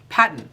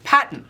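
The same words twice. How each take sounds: First: It is said with an Australian accent. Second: The same.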